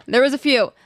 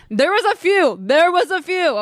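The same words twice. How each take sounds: First: Said in the usual way. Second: Higher, pointed repeat for suspense; emphatic tease. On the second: Real, not acted. Teasing listeners about the drama to come, emphatic and higher. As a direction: lean on it, there was a few.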